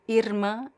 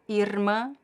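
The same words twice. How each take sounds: First: The R is trilled with the tongue tip. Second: The same.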